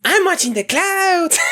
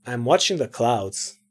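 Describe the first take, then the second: First: Put-on high girlish Mexican accent; badly faked high Mexican accent. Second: Low, soft, dismissive delivery; cool, low-pitched brush-off; aloof character. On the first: Shown as a demonstration. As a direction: pitch it way up for a Mexican girl. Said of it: "how to make a girl voice and". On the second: Acted. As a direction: say it low and uninterested. First take as aloof character.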